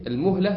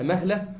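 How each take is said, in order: First: "المهلة" said as al-muhla; damma on the mim. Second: "مهلة" said as mahla; fatha on the mim. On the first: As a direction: say "المهلة" with a short u after the mim. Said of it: "المهلة بضم الميم". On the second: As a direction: say "مهلة" with an open a after the mim. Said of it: "بفتح الإيه؟". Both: Shown as a demonstration.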